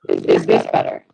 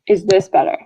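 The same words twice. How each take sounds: First: The voice sounds distorted and robotic. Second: The voice sounds clean and natural. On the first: The speaker calls it wrong. "You sound like a robot" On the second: The speaker calls it right.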